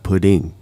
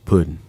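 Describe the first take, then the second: First: The word ends in an 'ng' sound. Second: The word ends in a plain 'n' sound. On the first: The speaker calls it wrong. "If you put a G, it doesn't count" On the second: The speaker calls it right. "P U D D I N"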